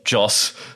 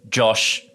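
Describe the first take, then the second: First: The name ends with an s sound. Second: The name ends with an sh sound. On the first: The speaker calls it right. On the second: The speaker calls it wrong.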